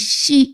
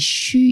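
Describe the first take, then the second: First: The syllable begins with a tense s sound. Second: The syllable begins with an sh sound. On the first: The speaker calls it wrong. "이 씨 이렇게 발음을 했다는 거예요" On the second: The speaker calls it right. "이 쉬 이렇게 해야 되는데"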